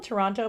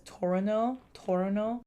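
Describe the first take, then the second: First: Said in the usual way. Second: Toronto with the second T dropped, "Torono"; local Toronto pronunciation. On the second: Shown as a demonstration. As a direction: swallow the middle of Toronto into "Tor'no". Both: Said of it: "People in Toronto pronounce Toronto as".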